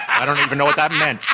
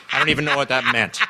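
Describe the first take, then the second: First: Laughing. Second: Said in the usual way. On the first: Real, not acted. Laughs at own story.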